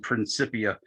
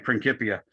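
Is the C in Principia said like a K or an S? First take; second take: S; K. First: The C sounds like an S. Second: The C sounds like a K. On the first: The speaker calls it wrong. "there is no soft C as in" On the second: The speaker calls it right. "It's only"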